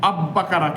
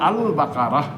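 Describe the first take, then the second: First: The L merges into a doubled B sound. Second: The L is clearly pronounced before the B. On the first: The speaker calls it wrong. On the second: The speaker calls it right.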